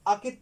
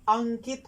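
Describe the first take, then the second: First: No nasal sound comes before the k. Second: A nasal sound comes before the k. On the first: The speaker calls it wrong. "अकित पढ़ देगा" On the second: The speaker calls it right. "अनुस्वार संबंधी"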